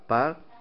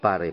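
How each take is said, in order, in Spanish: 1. La palabra termina en sonido consonántico. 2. La palabra termina en sonido vocálico añadido. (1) "Se lee par" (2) "y no pare"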